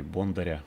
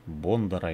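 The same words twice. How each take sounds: First: Бондаря with a soft, palatalized R; surname Бондаря ending in a soft "rya"; soft R variant. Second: Бондара with a hard R before the final A; surname Бондара pronounced with a hard, plain R; hard R variant. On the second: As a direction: say Бондара, keeping the R unpalatalized. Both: Shown as a demonstration. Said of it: "как правильно всё-таки его фамилию произносить".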